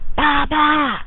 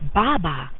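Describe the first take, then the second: First: It is said insistently, like an urgent demand. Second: It is said flatly, like a plain statement. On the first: I want it now. "I want it now" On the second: That is a bottle. "that's a bottle"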